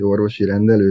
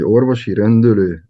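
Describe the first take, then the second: First: The second word's vowels are unrounded e sounds. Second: The second word's vowels are rounded ö sounds. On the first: This is the standard form. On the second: This is the regional dialect form used among locals.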